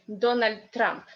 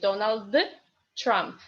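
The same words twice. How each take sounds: First: The two words run together like one. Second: The two words are said separately. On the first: The speaker calls it right. "You say Donald Trump. Yeah, like one word" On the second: The speaker calls it wrong. "you just don't say Donald Trump"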